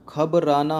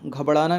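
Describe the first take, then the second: First: "घबराना" with a clear rolled "ra"; correct pronunciation. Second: "घबराना" with flapped "ṛ", as "ghabaṛana"; wrong pronunciation. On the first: Teacher corrects the common error, "घबराना" with plain "r". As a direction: say "घबराना" as "ghab-raa-naa". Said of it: "होता है". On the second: Teacher rejects a common error, "घबराना" with "ṛa" for "ra". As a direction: say "घबराना" run together as "ghabḍana". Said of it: "नहीं होता है". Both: Shown as a demonstration.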